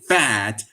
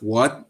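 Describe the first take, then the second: First: The word begins with a v sound. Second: The word begins with a w sound. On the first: "they said fat" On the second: "the Germans don't pronounce the W as W"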